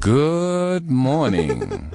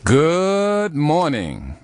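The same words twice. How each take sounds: First: It is said long but plainly. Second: It is said with exaggerated energy.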